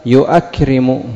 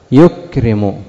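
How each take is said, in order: First: يؤكرم as "yu-akrimu", with a glottal stop; hamza kept in يؤكرم. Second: يكرم as "yukrimu", no glottal stop; hamza dropped in يكرم. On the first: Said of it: "لكن لو قلت". (يؤكرم بإثبات الهمزة مفتوحة بعد الياء) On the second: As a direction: go straight from "yu" into the k of يكرم. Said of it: "حذفت الهمزة". (يكرم بحذف الهمزة، ياء مضمومة ثم كاف ساكنة) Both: Shown as a demonstration.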